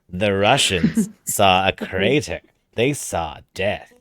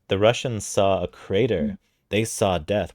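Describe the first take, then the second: First: It is read in a put-on character voice. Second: It is read in the reader's ordinary voice. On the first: The speaker calls it right. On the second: The speaker calls it wrong.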